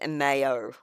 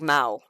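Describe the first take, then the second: First: The vowels are sounded out as separate syllables. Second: The vowels run together into one quick syllable. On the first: "when it's actually sounded out, it's mayo" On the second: "together it just sounds like mao"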